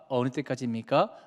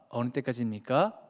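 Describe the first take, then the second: Both takes have the same delivery.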